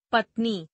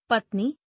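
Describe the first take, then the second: First: पत्नी ending on short i, "patni"; mispronounced. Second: Said in the usual way. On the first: Shown as a demonstration. Teacher showing an i error, mispronounced with short final i. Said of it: "अशुद्ध". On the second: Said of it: "शुद्ध".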